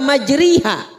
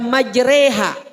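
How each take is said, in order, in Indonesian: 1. Vokal setelah r adalah bunyi i penuh. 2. Vokal setelah r adalah bunyi e penuh. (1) "bukan juga majriha" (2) "bukan dibaca majreha"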